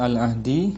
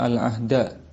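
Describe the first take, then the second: First: The word ends with an 'i' vowel. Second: The word ends with an 'a' vowel. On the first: The word is the possessor in a possessive construction. "bisa dibaca al-ahdi" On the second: The word is the direct object. "Kalau dibaca al-ahda, dia sebagai maf'ul bi"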